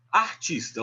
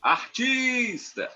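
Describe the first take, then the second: First: Said in the usual way. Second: ARTISTA called with a long, high TIS; high, slow call stretching the stressed TIS in "artista"; calling out, stretched syllable. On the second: Shown as a demonstration. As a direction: sing out "artista", drawing the TIS way out. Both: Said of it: "A sílaba que a gente estende".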